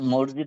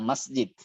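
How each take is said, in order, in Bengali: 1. শব্দটির একটি প্রচলিত, বেশি শোনা যায় এমন উচ্চারণ আছে। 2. শব্দটির একটি প্রমিত, যত্ন করে বলা উচ্চারণ আছে। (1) "মসজিদ না" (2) "শব্দটা হলো মসজিদ"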